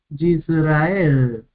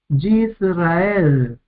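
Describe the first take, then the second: No difference in how they are said.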